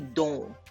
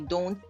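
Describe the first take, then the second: First: It has a Jamaican English pronunciation. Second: It has a standard, non-Jamaican pronunciation. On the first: The speaker calls it right. "we say don't" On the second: The speaker calls it wrong. "we don't say don't"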